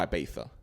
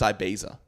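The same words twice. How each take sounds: First: The middle consonant sounds like a lisped 'th'. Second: The middle consonant is a plain 'z' sound. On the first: The speaker calls it wrong. "some king who had a lisp, and now everyone has to pronounce it like that" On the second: The speaker calls it right. "It's Ibiza"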